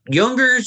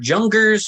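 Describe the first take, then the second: First: The name begins with a Y sound. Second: The name begins with a J sound.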